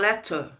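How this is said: The word is said with a British accent. "o britânico fala letter"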